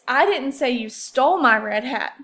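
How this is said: The word stole carries the main stress. "let's move on to the word stole"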